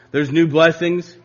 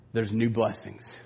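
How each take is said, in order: First: Said in the usual way. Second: Softer, slow and hushed; quiet. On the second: Acted. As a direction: say it under your breath, slowly. Quiet then repeated louder.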